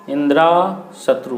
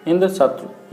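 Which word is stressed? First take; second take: Indra; shatru. First: The vowel of dra in Indra is lengthened. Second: Indra is quick; sha in shatru is higher.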